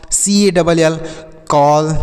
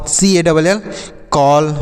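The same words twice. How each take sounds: The two takes are said the same way.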